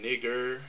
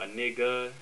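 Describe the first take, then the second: First: The word ends with an 'er' sound. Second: The word ends with an 'a' sound. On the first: "N I G G E R" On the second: "N I G G A"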